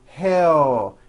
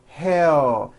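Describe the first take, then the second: First: The final L is weak, with the mouth closing. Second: The final L is weak, with the mouth closing.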